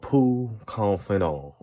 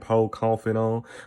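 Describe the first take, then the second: First: The first word has an oo vowel. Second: The first word has an oh vowel. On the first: "not poo" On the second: "I thought it was Poe"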